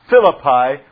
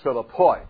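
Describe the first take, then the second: First: The word ends with an ee sound. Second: The word ends with an oy sound.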